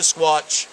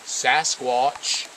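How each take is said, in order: First: Squatch clipped to one syllable, on purpose; deliberately wrong Squatch; wrong short Squatch. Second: Sasquatch with its full two syllables and a rising end; careful corrected Sasquatch. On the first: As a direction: drop the Sas and say just Squatch. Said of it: "See how bad that sounds?". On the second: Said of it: "excuse me". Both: Shown as a demonstration.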